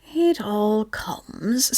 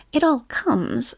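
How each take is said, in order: First: Cross. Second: Stern. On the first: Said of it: "said Pooh crossly". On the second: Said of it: "said Rabbit sternly". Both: A narrator's reading.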